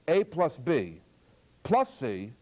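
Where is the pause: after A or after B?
After B. A and B are grouped, pause before C. A and B are added first. "if you first add A and B, then you add C"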